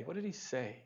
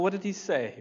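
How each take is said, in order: First: Hushed repeat. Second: Said in the usual way. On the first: Real, not acted. Pastor quietly repeating his question to the congregation. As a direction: drop to a near-whisper on the repeat.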